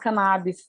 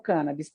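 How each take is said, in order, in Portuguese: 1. A sílaba tônica é a segunda. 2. A sílaba tônica é a primeira. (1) "tem muita gente que fala cannabis" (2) "eu prefiro adotar o cannabis. ... Cannabis é uma palavra proparoxítona"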